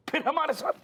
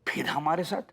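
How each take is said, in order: First: High-pitched, incredulous repeat; indignant echo. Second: Challenging echo. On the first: Father challenging the objector's complaint, high indignant echo. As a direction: throw the words back much higher, outraged. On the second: Father challenging the objector's complaint, pointed questioning echo. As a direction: echo it at ordinary pitch, ending on a rise. Throws back the objector's own words. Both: Acted.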